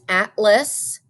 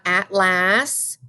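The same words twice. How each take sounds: First: The second syllable has a weak 'uh' vowel. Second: The second syllable has a clear 'a' vowel. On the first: The speaker calls it right. "a special schwa sound, which means it says uh" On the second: The speaker calls it wrong. "you might think that this is las. It is not"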